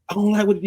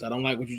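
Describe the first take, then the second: First: It is said in a strong, sharp voice. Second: It is said in a calm, even voice. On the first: The listener may feel offended. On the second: The listener just asks what was said.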